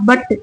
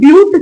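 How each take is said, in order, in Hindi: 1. स्वर एक छोटी 'uh' ध्वनि है। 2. स्वर एक लंबी 'yoo' ध्वनि है। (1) "नॉट बट" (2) "असां हिनखे ब्यूट चवंदासीं"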